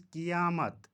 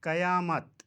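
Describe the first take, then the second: First: क़ियामत said qi-yaamat; क़ियामत as qiyaamat; correct pronunciation. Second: क़यामत said qa-yaamat, louder; क़यामत as qayaamat; mispronunciation. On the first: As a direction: say क़ियामत with i first. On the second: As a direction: say क़यामत with short a first. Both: Shown as a demonstration. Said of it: "का सही तलफ़ुज़".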